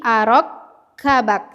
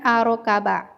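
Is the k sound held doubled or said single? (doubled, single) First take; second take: doubled; single. First: The k sound is held and doubled. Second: The k sound is short and single. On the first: The speaker calls it right. "Tetapi arok kabak" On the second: The speaker calls it wrong. "bukan arokaba"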